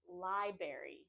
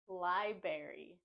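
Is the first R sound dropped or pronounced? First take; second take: dropped; dropped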